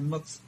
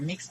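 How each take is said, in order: First: The word is said with the vowel of 'mux'. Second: The word is said with the vowel of 'mix'. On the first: "M U X" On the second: "M I X"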